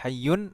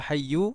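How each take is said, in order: First: The word ends with an added n sound. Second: The word ends on a vowel, no n. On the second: "atau tidak"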